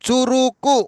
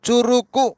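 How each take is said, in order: The two takes are said the same way.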